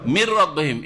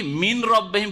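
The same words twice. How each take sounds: First: মির রব্বিহিম with the n merged into a doubled r; full idgham. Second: মিন রব্বিহিম with the n sounded clearly before r; the unmerged reading: n then r; without merging the n. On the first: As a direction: fold the n of মিন into the r. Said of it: "কিন্তু কি পড়ছেন?". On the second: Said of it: "মিন রব্বিহিম পড়ছেন না". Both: Shown as a demonstration.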